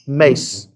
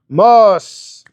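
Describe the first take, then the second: First: The vowel sounds like 'ay', as in 'face'. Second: The vowel sounds like 'ah', as in 'father'. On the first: "last name is Mace" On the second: "some pronounce it Mas"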